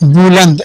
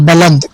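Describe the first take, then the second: First: The first vowel sounds like 'u'. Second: The first vowel sounds like 'a'. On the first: "इसको बुलंद भी पढ़ा जाता है" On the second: "और बलंद भी पढ़ा जाता है"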